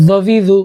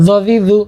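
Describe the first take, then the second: No difference in how they are said.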